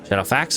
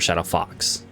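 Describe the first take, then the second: First: The last syllable rhymes with 'fax'. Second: The last syllable rhymes with 'fox'.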